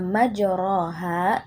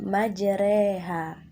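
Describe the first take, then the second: First: The vowel after r is an open a. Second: The vowel after r leans toward e. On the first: "kata majroha" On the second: "dibaca menjadi majreha"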